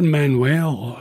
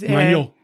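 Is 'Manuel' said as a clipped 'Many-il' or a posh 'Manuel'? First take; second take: posh; clipped. First: The name is said in a posh-sounding way. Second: The name is clipped, sounding like 'Many-il'. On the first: This is how an outside commentator says it. The speaker calls it wrong. "Sounds awful posh" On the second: This is how people from the west of Scotland say it. The speaker calls it right. "it's almost a sort of M-A-N-Y-I-L sort of noise"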